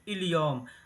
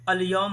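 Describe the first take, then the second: First: The word begins with an 'i' vowel. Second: The word begins with an 'a' vowel. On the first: Many people say it this way in everyday speech. "लोग बोलते हैं कितने लोग इल-यौम" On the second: This is the standard form of the word. "अल-यौम होता है"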